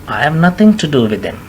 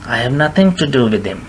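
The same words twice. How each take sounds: Both takes have the same delivery.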